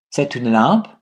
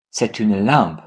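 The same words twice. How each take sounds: First: "C'est une lampe" with "lampe" swung upward; question intonation. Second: "c'est une lampe" lower, falling on "lampe"; statement answer. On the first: French teacher asks for an answer, "lampe" rising in question intonation. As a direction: ask it with a rise on "lampe". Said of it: "ask these questions in three different ways". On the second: French teacher gives the positive answer, "lampe" falling as a statement. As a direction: answer it by dropping "lampe" at the end. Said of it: "And the answer is". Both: Shown as a demonstration.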